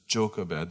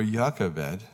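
First: Jochebed said JOCK-eh-bed, stress on the first syllable; pronouncing Jochebed. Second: Jochebed said slowly as YAH-keh-bed with a Y sound; slow Jochebed starting with Y, jɑkəbɛd; alternate pronunciation. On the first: Pastor teaching the congregation how to say Jochebed. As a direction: say Jochebed as tʃoʊ-kə-bɛd. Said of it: "That's how you pronounce it". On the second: Pastor offering the Hebrew-style alternate reading of Jochebed, slow. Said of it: "or Jochebed". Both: Shown as a demonstration.

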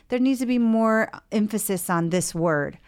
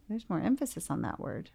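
First: Lightly acted patient putting a point firmly; objecting patient. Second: Soft, lightly acted therapist echo; musing therapist. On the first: Patient correcting the therapist's draft song, mildly insistent. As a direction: press for a change, as a client would. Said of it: "or you say". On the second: Therapist echoing the patient's request, quietly musing. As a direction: reflect it back quietly, as a therapist would. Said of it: "So then as a therapist, I'm like".

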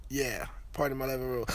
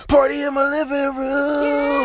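First: Said in the usual way. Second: High, slow, booming wrestling announcer shout; booming wrestler voice. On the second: Acted. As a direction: roar the name out like a wrestler hyping the crowd. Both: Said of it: "my wrestler voice".

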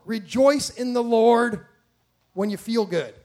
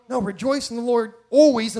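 First: REJOICE drawn out loud, slow, then easing off; mock misquote. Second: ALWAYS hit hard and loud; emphatic correction. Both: Shown as a demonstration.

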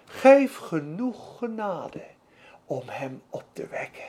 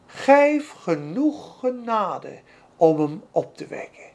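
First: Humble prayer. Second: Slow, humble whispered-down prayer, fading to near silence. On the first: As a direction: let the plea shrink to almost nothing. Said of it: "Hij zegt eigenlijk". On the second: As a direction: pray it small and humble before God. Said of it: "Weet je wat hij bad?". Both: Retold or imitated.

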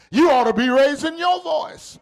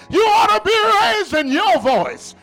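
First: Firm sermon exhortation; raised preaching voice. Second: High-pitched preaching shout; raised voice. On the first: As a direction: urge the congregation, not yet shouting. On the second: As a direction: raise your voice to stir the congregation. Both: Real, not acted. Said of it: "And I just raised my voice".

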